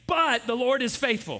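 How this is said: The word 'but' is stressed. "So the first time we're going to say, but"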